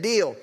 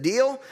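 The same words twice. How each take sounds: First: "Deal." answered with a falling tune; agreeing deal. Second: "Deal?" asked with a rising tune; questioning deal. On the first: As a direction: settle it with a flat, final "Deal.". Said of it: "They said". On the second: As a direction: offer "Deal?" as a question, lifting at the end. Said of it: "He said". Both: Retold or imitated.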